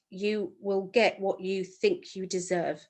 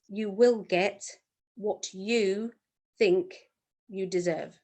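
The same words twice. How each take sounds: First: The sentence is spoken at a normal pace. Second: The sentence is spoken at a slow pace.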